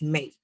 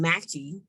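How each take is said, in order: First: The final E is silent, giving one syllable. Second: The final E is sounded as a second syllable. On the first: The speaker calls it right. "but it's make" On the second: The speaker calls it wrong. "it's not um, matchy"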